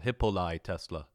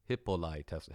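First: Louder, grandly proclaiming the name; triumphant naming; proud announcement. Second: Said in the usual way. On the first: Shown as a demonstration. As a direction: announce it like a title. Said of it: "that's right". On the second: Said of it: "Hippoli Tesla, that's right".

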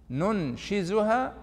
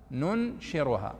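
First: "ننشزها" slow and raised, with z; zay for contrast. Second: "ننشرها" slow and falling, with r; ra for contrast. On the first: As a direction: draw out "ننشزها" with a clear z, rising. («ننشزها» بالزاي على مهل) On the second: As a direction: draw out "ننشرها" with a clear r. («ننشرها» بالراء على مهل) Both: Shown as a demonstration. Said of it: "وش الفرق بينها".

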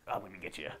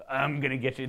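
First: "I'm gonna get you" muttered low and soft; soft mock taunt. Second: Mock warrior taunt. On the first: Fan imitating Geralt's quick stance, a soft taunt. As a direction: play Geralt quietly sizing up his foe. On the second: Fan imitating Geralt's quick stance, a hammed-up taunt. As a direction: play Geralt hamming it up before he lunges. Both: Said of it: "he would just do".

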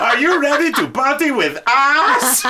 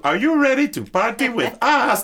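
First: Laughing through a loud shout. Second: High, loud hype shout; party hype. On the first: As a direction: crack up mid-line. The line while she points behind. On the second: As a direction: call out to the crowd. Quoting the singer's hype line. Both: Retold or imitated.

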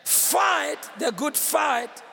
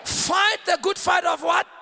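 First: Stretched, emphatic "Fight"; half-speed, word by word for the crowd; slow call to repeat. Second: Forceful, urgent call ending on a question; emphatic preacher's prompt, quicker and driving; like life depends on it. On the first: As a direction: lead a congregation in recitation. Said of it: "Let me hear you again". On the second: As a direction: punch it out to rouse the crowd. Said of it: "Say it like your life depends on it". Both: Shown as a demonstration.

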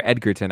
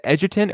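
First: "Edgerton" with a hard g, as in egg; hard-g pronunciation. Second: "Edgerton" with a soft g, as in edge; soft-g pronunciation. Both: Shown as a demonstration. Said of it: "I always say it wrong".

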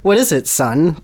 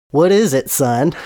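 First: Said in the usual way. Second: Southern drawl, a bit louder; Southern preacher voice; southern accent. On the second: Acted. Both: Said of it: "he has a southern accent".

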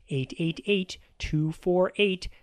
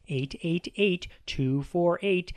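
No difference in how they are said.

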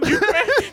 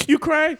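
First: Higher, with a laugh, teasing; taunting a crying buddy, laughing; mock teasing question. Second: Raised, mock-taunting "You cry?"; mock taunt, lighter take; teasing question. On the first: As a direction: needle him, pitch climbing up. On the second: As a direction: poke fun at him. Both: Mocking a crying friend.

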